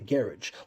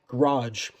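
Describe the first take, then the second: First: It is said in a British accent. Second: It is said in an American accent. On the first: "people from the U K say garage" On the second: "how we Americans say garage"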